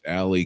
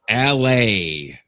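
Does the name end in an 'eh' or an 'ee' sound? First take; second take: ee; eh. First: The name ends in an 'ee' sound. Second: The name ends in an 'eh' sound. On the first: This is the Americanized pronunciation. "It's Alley because it's sexier, it's American" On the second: This is the name's original pronunciation. "L A is the way you say it, like Alex without the X"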